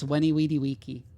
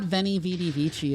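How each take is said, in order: First: Each word begins with a w sound. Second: Each word begins with a v sound. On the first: The speaker calls it right. "it's Weni Weedy Wiki" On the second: The speaker calls it wrong. "it's not Veni Vidi Vici"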